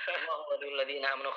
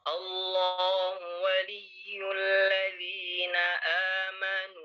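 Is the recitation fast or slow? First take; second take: fast; slow. First: It is recited very quickly and rushed. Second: It is recited slowly and carefully. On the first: The speaker calls it wrong. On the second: The speaker calls it right.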